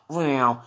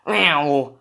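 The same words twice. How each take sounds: First: Car sound effect. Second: Higher, whizzing car noise; a playful mouth-made car zooming past; car sound effect. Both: Pretend. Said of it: "that's my car sound effect".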